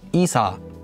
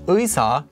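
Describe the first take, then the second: First: The first syllable has a plain 'ee' vowel. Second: The first syllable has the gliding 'ui' vowel. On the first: The speaker is from the Gyeongsang region. "someone from that area pronounce it as 이사" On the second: This is the standard pronunciation. "instead of saying 의사"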